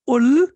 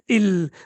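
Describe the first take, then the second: First: The word starts with an u vowel. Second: The word starts with an i vowel. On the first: "We cannot say ul" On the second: "we cannot say il"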